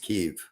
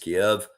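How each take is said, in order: First: The name is said the Ukrainian way. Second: The name is said the Russian way. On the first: "the preferred Ukrainian pronunciation is Kyiv" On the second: "the preferred Russian p- pronunciation is Kiev"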